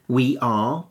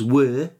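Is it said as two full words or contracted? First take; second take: two words; contracted. First: It is said as two full words. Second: It is said as one contracted syllable. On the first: "We are becomes were" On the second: "We are becomes were"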